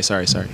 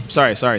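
First: Trailing off, much softer and lower; a guy caught cursing, mumbling his apology fainter; fading apology. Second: Quick mock sorry, lower voice; embarrassed apology. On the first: Retold or imitated. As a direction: let the sorry die away under the breath. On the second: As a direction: blurt the apology on catching the minister's eye. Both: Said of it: "as soon as they saw me".

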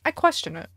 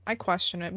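First: Said in the usual way. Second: Muttered repeat. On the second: Real, not acted. Streamer repeating a doubt about the hair, softer and lower. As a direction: lower and softer, under the breath. Repeats judgment under breath.

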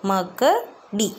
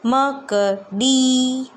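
First: Said in the usual way. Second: मकड़ी split into ma-ka-ri, very slow; syllable by syllable. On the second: Shown as a demonstration. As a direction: break मकड़ी into separate syllables for children.

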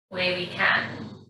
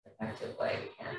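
First: Said in the usual way. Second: A soft whispered self-correction under the breath. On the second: Real, not acted. Yoga teacher quietly correcting her own wording in a whisper. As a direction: murmur the fix to yourself. Repeats phrase, second time whispered.

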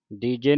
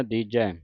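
First: ਦੀਜੇ with a plain e ending; ਦੀਜੇ, the wrong e sound; wrong vowel shown. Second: ਦੀਜੈ ending on the open ɛ sound; ਦੀਜੈ with the proper ɛ ending; correct vowel. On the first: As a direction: end ਦੀਜੇ on a short e, as the mistake. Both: Shown as a demonstration. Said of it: "ਦੀਜੇ ਨਹੀਂ ਪੜ੍ਹ ਦੇਣਾ".

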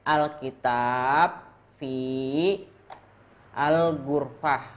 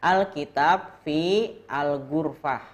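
First: Alkitab fi al-gurfah said slowly, word by word; slow model reading. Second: Said in the usual way. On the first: Shown as a demonstration. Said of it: "Satu ulangi lagi". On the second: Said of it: "bacanya gini".

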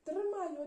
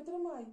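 First: Loud urgent call, higher; shouting. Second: Shouting. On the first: Mother on the porch shouting to Maksym to catch the dog. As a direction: shout after the fleeing dog. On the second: Mother shouting again to Maksym to grab the dog. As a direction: shout it again, still urgent. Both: Acted. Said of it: "гукнула мама".

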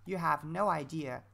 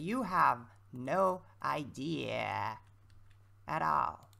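First: Said in the usual way. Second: Dramatic slow. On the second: Acted. Teasing viewers about cracking voice.

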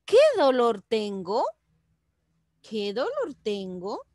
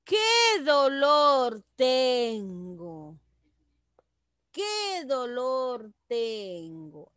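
First: Pregunta sin alargar, TENGO sube al final; QUÉ DOLOR y luego final levantado en «tengo». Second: Lamento muy lento, QUÉ alto y TENGO cayendo; quéjate alargando «qué», «dolor» y «tengo»; exclamación. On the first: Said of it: "en pregunta será". (pregunta con final ascendente) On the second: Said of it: "Ese es en exclamación". (exclamación quejosa, lenta y descendente) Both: Shown as a demonstration.

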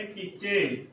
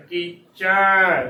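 First: ਕੀਚੇ soft, ending in a narrow "che"; wrong closed "e". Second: ਕੀਚੈ slow and loud, as "kee-chai"; correct open "ai". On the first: Teacher shows congregation's error, ਕੀਚੇ with closed e. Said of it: "ਕੀਚੇ ਉਚਾਰਨ ਗਲਤ ਹੈ". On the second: Teacher models correct dulavan reading, ਕੀਚੈ ending open. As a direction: stretch a wide "chai" and let it fall. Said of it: "ਚੱਚੇ ਨੂੰ ਦਲਾਵਾਂ ਚੈ". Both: Shown as a demonstration.

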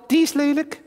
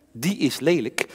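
First: High puppet voice; talking doll. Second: Said in the usual way. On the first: Acted. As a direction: doll voice, disgusted. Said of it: "Henk is mijn pratende pop".

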